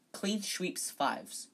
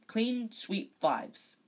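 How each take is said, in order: First: "clean sweeps fives" slipped into "clean shweeps fives"; tongue-tripped title. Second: "Clean sweep fives" said slowly, each word crisp, clean s sound; deliberate slow "Clean sweep fives" with a clear s; careful retry. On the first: Reader trips over the broom name, a slurred slip. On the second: Reader gets the broom name right at last, slow and careful. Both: Real, not acted. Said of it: "Yeah, I can't say it".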